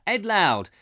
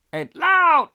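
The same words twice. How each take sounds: First: Said in the usual way. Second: High, loud shout on LOUD; playful shout. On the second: Pretend. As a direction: bellow LOUD as a comic call. Playful calling out on the name.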